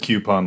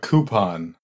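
First: The word starts with a 'kyoo' sound. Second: The word starts with a plain 'coo' sound. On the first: "like Q-U-E" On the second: "Like COO"

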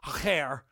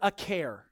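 First: The middle consonant is a throaty guttural sound. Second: The middle consonant is a plain, soft sound.

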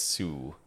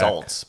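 First: The word sounds like 'sue', with no L-T. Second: The word rhymes with 'halt', ending in an L-T. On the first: The speaker calls it right. "but it's Sioux" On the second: The speaker calls it wrong. "Americans would probably say Salt"

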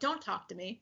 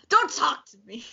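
First: It is said passively and offhandedly. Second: It is said forcefully and pointedly.

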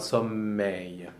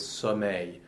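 First: The m is held long, as a doubled consonant. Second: The m sounds short, like a single consonant. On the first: The speaker calls it wrong. "It's not sommeil" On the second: The speaker calls it right. "You pronounce the double consonant the same way you pronounce a single consonant"

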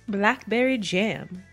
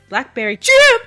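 First: It is said at normal volume. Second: It is shouted very loudly.

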